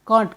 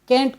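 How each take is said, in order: First: The vowel is long and open, as in car. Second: The vowel is short and flat, as in cat. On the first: "British अंग्रेजी में हम इसे कांट कहते" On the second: "American English में इसे हम कैंट कहते हैं"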